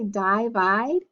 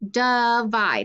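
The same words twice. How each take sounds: First: The first vowel is a long i sound. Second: The first vowel is a weak uh sound. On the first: The speaker calls it wrong. "my I should be long" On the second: The speaker calls it right. "the I makes the schwa sound"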